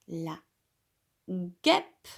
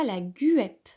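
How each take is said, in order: First: The g and u form one hard g sound. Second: A separate u vowel is sounded after the g. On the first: The speaker calls it right. "le G et le U sont lus ensemble et ça fait G" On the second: The speaker calls it wrong. "on ne dit pas la guêpe"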